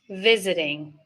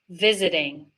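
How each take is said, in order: No difference in how they are said.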